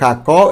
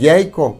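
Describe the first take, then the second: First: The word begins with a Spanish j sound. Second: The word begins with a y sound. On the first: This is the changed modern form. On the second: This is the original Hebrew form.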